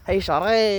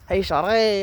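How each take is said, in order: First: It is said in an odd put-on accent. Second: It is said in an odd put-on accent.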